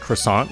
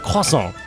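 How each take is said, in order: First: It is said with an English pronunciation. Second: It is said with a French pronunciation. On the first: The speaker calls it right. "like a normal person" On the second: The speaker calls it wrong. "Why did I just switch languages?"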